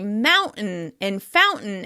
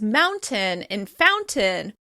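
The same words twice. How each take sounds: First: The t is replaced by a glottal stop. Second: The t is pronounced as a full t. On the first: "we often say mountain and fountain instead" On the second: "Rather than pronouncing these words as mountain and fountain"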